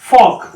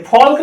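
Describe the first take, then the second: First: फॉक with a silent L; फॉक said cleanly, L left out; right pronunciation. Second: फॉल्क said with the L sounded; फॉल्क with a clear L before the K; wrong pronunciation. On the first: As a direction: say फॉक with no L at all. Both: Shown as a demonstration. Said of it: "फॉल्क नहीं है".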